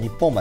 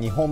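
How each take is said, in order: First: The name is pronounced Nipponbashi. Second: The name is pronounced Nihonbashi. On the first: This is the Osaka place near Namba. The speaker calls it right. "日本橋だよね。" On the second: This is the Tokyo place with the same spelling. The speaker calls it wrong. "日本橋とは読まないんだよね。"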